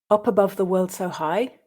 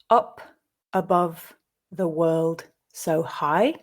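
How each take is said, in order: First: The line is read at a faster pace. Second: The line is read at a slow pace. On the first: "at a more natural pace"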